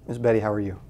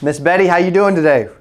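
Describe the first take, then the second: First: It is said in a flat, bored tone. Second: It is said in a lively, upbeat tone.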